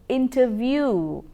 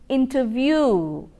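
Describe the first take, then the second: No difference in how they are said.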